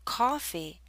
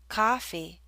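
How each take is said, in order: First: The first vowel is a rounded 'aw' sound. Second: The first vowel is an open 'ah' sound. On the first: "If you hear aw, coffee, the lips are more rounded" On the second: "If you hear ah, coffee, the lips are more relaxed"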